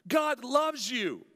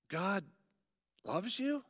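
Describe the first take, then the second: First: It is said as a firm statement. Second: It is said as a doubtful question.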